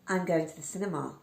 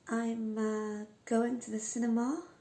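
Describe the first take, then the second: First: It sounds certain, with pitch falling at the end. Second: It sounds hesitant and apologetic. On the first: The speaker is certain and has finished. The speaker calls it right. "convey a level of confidence" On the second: The speaker seems unsure about the plan. The speaker calls it wrong. "it almost sounds like this person is apologising"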